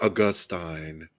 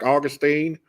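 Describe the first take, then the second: First: It is said in the Bible-college way. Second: It is said in the West Virginia way. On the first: The speaker uses the learned academic pronunciation. "Then you go to Bible college, you're like Augustine" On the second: The speaker uses the familiar home pronunciation. "I'm just from West Virginia, so I'm like Augustine"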